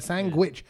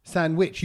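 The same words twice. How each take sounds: First: "sandwich" said as "sangwich" with a G before the W. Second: "Sandwich" said as "sanwich", no D sound; sandwich without the D. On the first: Retold or imitated. Imitating cousins' G version for the friends. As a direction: slip a hard G into "sandwich". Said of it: "You want a sandwich?". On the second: Shown as a demonstration. Showing friends the D-less way to say it. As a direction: drop the D in "Sandwich": "san-wich". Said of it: "You just don't say the D".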